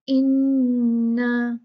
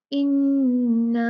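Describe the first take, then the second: First: इन्ना with the final aa stretched long; stretched madd. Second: इन्ना said slowly with a short nasal n; short inna. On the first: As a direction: draw out the aa of इन्ना. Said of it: "यहाँ पे stretch करेंगे, इसको खींचेंगे". (इन्ना का आ खींचकर) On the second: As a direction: recite इन्ना evenly. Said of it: "और ये इन्ना". (इन्ना धीमे से) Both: Shown as a demonstration.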